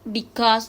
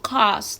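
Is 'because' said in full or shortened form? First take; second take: full; shortened. First: The word is said with both syllables. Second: The first syllable is dropped from the word. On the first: "normalmente se corta" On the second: "se corta a cause"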